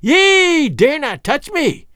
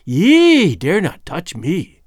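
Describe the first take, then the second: First: High, slow, loud witch's shriek; old witch screaming at the king; furious shriek. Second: Put-on old witch daring the king to touch her; defiant old hag. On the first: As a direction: shriek it in terror and rage. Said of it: "she shrieked in terror and fury". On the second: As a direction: warn him off like a cornered witch. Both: A narrator's reading.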